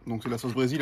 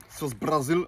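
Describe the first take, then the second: First: Said in the usual way. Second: "Brésil" said "Bra-zil", like Portuguese Brasil; "sauce Brésil" with a playful Brazilian a in "Bra"; showing the sauce, "Brésil" in a put-on Brazilian sound; Brazilian accent on Brésil. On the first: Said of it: "j'aime bien faire l'accent". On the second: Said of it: "j'aime bien faire l'accent parce qu'ils font l'accent là-bas".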